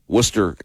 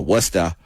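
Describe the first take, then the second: First: It is said with the local Ohio pronunciation. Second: It is said with a Massachusetts pronunciation. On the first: "Worcester, Ohio" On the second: "in Massachusetts they would go Worcester"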